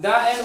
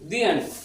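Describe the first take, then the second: First: The word 'the' sounds like 'thuh'. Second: The word 'the' sounds like 'thee'. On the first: The speaker calls it wrong. "দা end বললে ভুল" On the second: The speaker calls it right.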